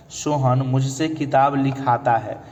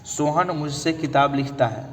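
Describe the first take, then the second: First: Slow, careful लिखाता with the long आ; a teacher slowly stressing लिखाता; corrected form. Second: Said in the usual way. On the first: Shown as a demonstration. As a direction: spell out लिखाता clearly, slowly, lingering on the आ. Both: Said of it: "यहाँ पर कौन सी क्रिया".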